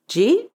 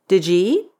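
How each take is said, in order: First: The words are compressed into one short syllable. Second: The words are partly shortened and linked. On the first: "or even"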